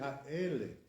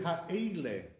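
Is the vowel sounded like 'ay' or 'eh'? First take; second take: eh; ay. First: The vowel is a plain 'eh' sound. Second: The vowel is a gliding 'ay' sound. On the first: This is how the speaker's community says it. "We say Ha'ele" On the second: This is how one community says it.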